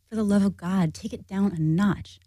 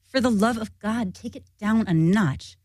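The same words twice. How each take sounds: First: It is said with milder anger. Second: It is said with stronger anger.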